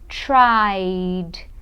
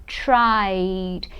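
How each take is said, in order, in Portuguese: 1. O final é só um som de D. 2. O final é só um som de D.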